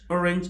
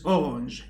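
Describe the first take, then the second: First: It is said with English pronunciation. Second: It is said with French pronunciation. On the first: "Orange starts with an O" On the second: "so in French, orange is orange"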